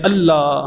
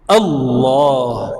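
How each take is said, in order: First: It is said with a plain Punjabi pronunciation. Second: It is said in full-mouthed Arabic style.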